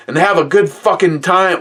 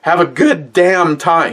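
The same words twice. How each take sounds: First: Put-on much higher fired-up old man saying "fucking time"; first take, with the word "fucking"; worked-up grandpa, wrong word. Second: Put-on much higher, slow old man saying "damn time"; corrected take, with the word "damn"; worked-up grandpa, corrected. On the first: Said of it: "Or, no, actually, sorry, sorry". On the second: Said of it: "He didn't say fuck".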